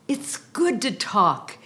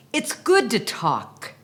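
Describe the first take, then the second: No difference in how they are said.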